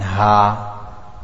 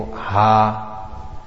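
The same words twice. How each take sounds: First: "ha" as a deep throaty ح, slowly; emphatic throat ha. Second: "ha" as a light breathy ه; plain light ha. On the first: Teacher demonstrates throaty ha to students. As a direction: push "ha" from the throat. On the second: Teacher contrasts with plain ha for students. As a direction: say "ha" lightly, no throat. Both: Shown as a demonstration. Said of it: "a difference between ha and ha".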